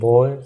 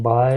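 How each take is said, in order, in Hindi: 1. स्वर गोल होठों वाला 'aw' जैसा है। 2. स्वर खुला 'ah' जैसा है। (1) "बॉय को बोलेंगे बॉय" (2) "बाय नहीं बोलेंगे"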